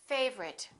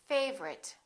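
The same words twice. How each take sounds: Both takes have the same delivery.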